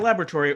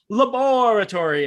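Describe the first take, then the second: First: It is said in a plain everyday accent. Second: It is said in a put-on Scottish accent.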